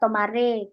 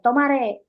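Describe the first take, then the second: First: It is said gently, without force. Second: It is said forcefully, like a command.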